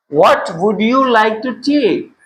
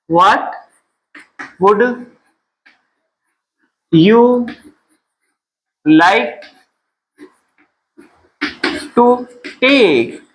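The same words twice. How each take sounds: First: Said in the usual way. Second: "What ... would ... you ... like ... to take?" with long pauses; word-by-word drill. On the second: Shown as a demonstration. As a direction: dictate "What would you like to take?" in isolated words, pausing for repetition.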